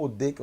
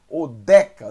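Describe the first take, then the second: First: Odeca with a closed E, like 'ay'; closed E, misread. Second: Odeca with an open E as in 'bet'; Odeca, DE opened wide and punched. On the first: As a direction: quote the misreading Odeca, middle vowel closed. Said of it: "eu li errado". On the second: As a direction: say Odeca loudly, middle vowel open. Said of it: "som de E". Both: Shown as a demonstration.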